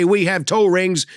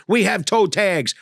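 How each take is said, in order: First: Said in the usual way. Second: "We have toe tags" read slow and flat, a beat before "tags"; deadpan punchline. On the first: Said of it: "It used to say". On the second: Retold or imitated. Comic reading the gift shop sign, slow and dry. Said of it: "Now it says".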